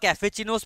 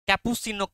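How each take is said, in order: First: The middle consonant is an 'f' sound. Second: The middle consonant is a 'p' sound. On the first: The speaker calls it wrong. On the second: The speaker calls it right.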